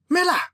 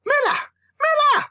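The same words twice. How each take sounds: First: First urgent call. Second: Climbing frantic yells; escalating call. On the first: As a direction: call your brother over the storm. Calling brother from the storm. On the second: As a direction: call out harder each time. Calling brother, getting louder. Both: Acted.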